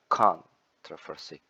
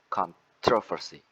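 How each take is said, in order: First: The stress is on the first syllable. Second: The stress is on the second syllable. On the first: "the first one at the first syllable" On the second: "the second one is at the second syllable"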